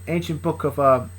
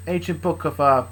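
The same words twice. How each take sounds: The two takes are said the same way.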